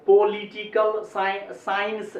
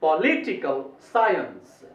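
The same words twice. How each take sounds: First: पॉलिटिकल साइंस level, full 'po-li-ti-kal sains'; wrong pronunciation. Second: पॉलिटिकल साइंस slow, stress on 'LI', 'sai-uns' falling; English pronunciation. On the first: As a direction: give every syllable of पॉलिटिकल equal weight, slowly. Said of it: "ऐसे नहीं बोलना है". (पॉलिटिकल साइंस को सपाट 'पो-लि-टि-कल साइंस') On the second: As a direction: lift 'LI' in पॉलिटिकल, split साइंस into sai-uns. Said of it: "इसको पढ़ना चाहिए क्या". (पॉलिटिकल में 'लि' पर ज़ोर, 'साइ-अंस' गिरता) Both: Shown as a demonstration.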